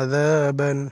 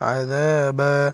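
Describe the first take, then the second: First: The word ends with an n sound. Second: The word ends in a long vowel, no n. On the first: The word is being spelled out. "বানান করার সময় আযাবান" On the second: The reader stops on this word. "দুই জবরে অক্ফ হয় তাহলে এক আলিফটা নিয়ে পড়তে হবে"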